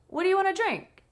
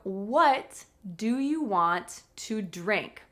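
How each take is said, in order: First: The question is spoken fast with reduced words. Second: The question is spoken slowly with full words.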